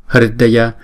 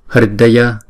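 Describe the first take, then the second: No difference in how they are said.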